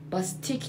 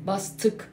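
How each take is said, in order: First: باستیک said with a clear "i" sound, as bahs-TEEK; wrong vowel demo. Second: باستک said with a short, dull back vowel, as bahs-tuk; the correct way: باستک with the short undotted ı; right vowel demo. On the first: Teacher corrects the singer's name, showing the wrong باستیک. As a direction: demonstrate the wrong way: باستیک with a long "ee". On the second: Teacher gives the right form of the singer's name, باستک. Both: Shown as a demonstration. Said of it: "باستیک نیست".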